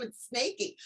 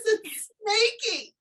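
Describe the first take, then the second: First: Said in the usual way. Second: Much higher, slow, drawn-out "Snakey"; lightly voiced child, slow and high; imitating the boy. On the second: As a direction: say the pet's name proudly, like a kid. Boy names his snake.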